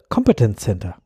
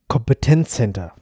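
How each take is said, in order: First: The word has an English stress pattern. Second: The word has a German stress pattern.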